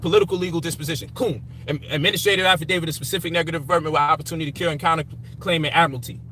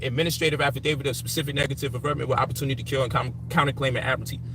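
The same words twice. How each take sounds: First: Reeled off at a fast clip, a touch lower; quick listing of legal terms, lightly performed; rattling off legal jargon. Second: Faster and lower, rushed string of legal terms; rattling it off faster. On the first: Retelling what he told critics, rattling off jargon. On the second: Repeating the jargon to critics, rushed and low. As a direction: spit the whole legal phrase out quickly and low. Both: Retold or imitated. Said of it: "I said".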